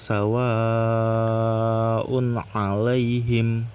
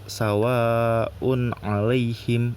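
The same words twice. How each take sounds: First: The long vowel is held for about four beats. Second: The long vowel is held for about two beats. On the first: The speaker calls it right. "dibacanya sepanjang empat atau lima harokat" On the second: The speaker calls it wrong. "Jadi bukan uh, dua rokat"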